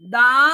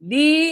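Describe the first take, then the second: First: The vowel is a short, weak 'uh'. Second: The vowel is a long 'ee'. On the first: The next word starts with a consonant. "দা উচ্চারণ বলবো।" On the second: The next word starts with a vowel. "দি বলবো।"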